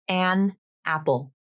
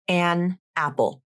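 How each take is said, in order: The two takes are said the same way.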